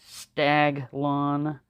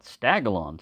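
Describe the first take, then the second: First: The g runs straight into the l. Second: An extra vowel sits between g and l. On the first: The speaker calls it right. "There's no A in there" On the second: The speaker calls it wrong. "We always mispronounce that"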